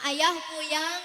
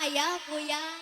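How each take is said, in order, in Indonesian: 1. Bunyi L diganti dengan bunyi Y. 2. Bunyi L diganti dengan bunyi Y.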